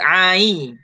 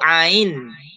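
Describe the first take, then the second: First: The final n is dropped after a long vowel. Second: The final n is clearly pronounced. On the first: The speaker calls it right. "Saya sebut ai" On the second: The speaker calls it wrong. "Ustaz tak sebut ain"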